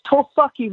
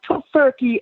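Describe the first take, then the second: First: Tofurkey said as "toh-FUCK-ee"; altered pronunciation. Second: Said in the usual way. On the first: Shown as a demonstration. Correcting the co-host on the dish's name, tofurkey said "toh-fucky". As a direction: make the middle of tofurkey rhyme with "luck", no r. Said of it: "it's not tofurkey, it's tofurkey". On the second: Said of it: "it's not tofurkey".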